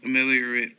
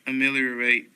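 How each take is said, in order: First: "Ameliorate" ending in a short -rət; reduced final vowel. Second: "Ameliorate" ending in a long -rate; full final vowel. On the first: Reader going down a word list, "Ameliorate" with reduced ending. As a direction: say "Ameliorate" with its last syllable unstressed. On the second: Reader going down a word list, "Ameliorate" with full -rate ending. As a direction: say "Ameliorate" with its last syllable rhyming with "late". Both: Shown as a demonstration. Reads word two ways.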